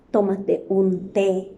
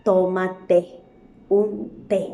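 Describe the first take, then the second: First: Slow, each word laid out; Tómate un té read slowly; slow example. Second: Tómate, a pause, then un té stressed; Tómate ... un té split by a pause; pause before té. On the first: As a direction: read it slowly so the repeated té is heard. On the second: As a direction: hold a beat and land on té. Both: Shown as a demonstration. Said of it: "Tres veces ha utilizado en una oración".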